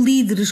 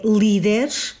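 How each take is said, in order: First: Líderes with closed ê in de; wrong pronunciation. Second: Líderes with an open E in "de", slowly; correct pronunciation. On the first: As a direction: say líderes with the second E closed, as in "dedo". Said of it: "e não líderes". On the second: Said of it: "que corretamente é líderes". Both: Shown as a demonstration.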